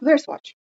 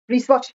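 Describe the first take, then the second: First: A w sound is pronounced first. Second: The first w sound is silent. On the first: The speaker calls it wrong. "اون گفت مثلا میگفت" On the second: The speaker calls it right. "وقتی دابلی و آر با هم دیگه باشن اصلا ما دابلی رو نمیخونیم"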